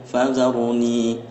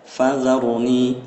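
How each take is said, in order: Both takes have the same delivery.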